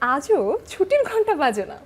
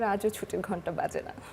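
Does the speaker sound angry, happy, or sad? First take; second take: happy; sad. First: It is said in a happy tone. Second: It is said in a sad tone. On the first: "আনন্দ দেখিয়ে বলি" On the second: "দুঃখ"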